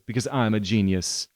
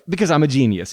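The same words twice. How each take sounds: First: The line is said flatly, with a final fall. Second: The line is said with a jokey, ironic tone. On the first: The speaker sincerely means it. The speaker calls it right. "Full stop" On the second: The speaker is joking about being a genius. The speaker calls it wrong. "He doesn't say it like that"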